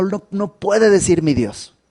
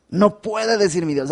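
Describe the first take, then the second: First: "puede" pushed up and stressed. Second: "No" hit high and hard at the start; stress on NO. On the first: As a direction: lean on the word "puede". (acento en "puede") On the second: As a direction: punch the word "No". (énfasis fuerte en "No") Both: Shown as a demonstration.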